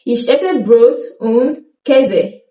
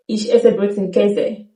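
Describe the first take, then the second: First: Ich esse Brot und Käse slow with a clear und; slow careful sentence; full form. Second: Und cut to un in Ich esse Brot und Käse; quicker casual sentence; reduced form. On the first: Teacher gives the slow full sentence. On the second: Teacher shows the spoken sentence. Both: Shown as a demonstration. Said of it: "drop the D and say it faster".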